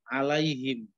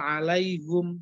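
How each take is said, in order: First: The last syllable has the vowel i. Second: The last syllable has the vowel u. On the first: This is the common reading, easier on the tongue. "Tujuannya memudahkan" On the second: This is an alternative reading, heavier on the tongue. "Kalau dalam ilmu tajwid alaihum itu bacaan hamzah"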